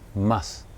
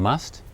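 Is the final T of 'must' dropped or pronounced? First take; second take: dropped; pronounced. First: The final T sound is dropped. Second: The final T sound is clearly pronounced.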